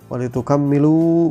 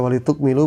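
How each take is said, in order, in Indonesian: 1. Konsonan tengah itu ditahan panjang dan digandakan. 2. Konsonan tengah itu pendek dan tunggal. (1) "bitasydid, watasydid dengan tasydid" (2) "bitahfif, ini artinya dengan tahfif, ringan"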